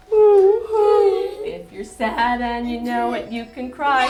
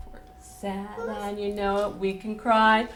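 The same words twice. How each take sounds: First: Hammed-up sung sob, louder and higher; mock crying. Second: Said in the usual way. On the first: Shown as a demonstration. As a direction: pretend to cry for the children. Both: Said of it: "we're going to cry a little bit".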